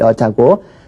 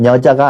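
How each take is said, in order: First: The word begins with a Y sound. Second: The word begins with an N sound. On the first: The speaker calls it right. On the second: The speaker calls it wrong.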